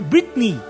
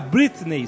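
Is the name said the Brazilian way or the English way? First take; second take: English; Brazilian. First: The name is said with an English pronunciation. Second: The name is said with a Brazilian Portuguese pronunciation. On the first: The speaker calls it right. "na verdade é" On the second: The speaker calls it wrong. "aqui no Brasil se fala muito"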